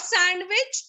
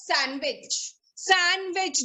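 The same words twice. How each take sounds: First: "sandwich" with the D sounded, sand-wich; wrong pronunciation. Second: "sandwich" as san-wich; silent D. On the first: Teacher recalling the wrong form, sandwich with voiced D. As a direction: sound the D in sandwich, lifting at the end. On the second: Teacher revising with the class, sandwich with silent D. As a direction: drop the D from sandwich each time. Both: Shown as a demonstration. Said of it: "the D is silent".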